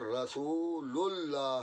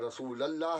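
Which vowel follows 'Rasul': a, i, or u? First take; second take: u; a. First: The vowel after Rasul is u. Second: The vowel after Rasul is a. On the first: The speaker calls it right. "बल्कि अशहदु अन्ना मुहम्मदर रसूलुल्लाह है" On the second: The speaker calls it wrong. "न रसूलल्लाह है"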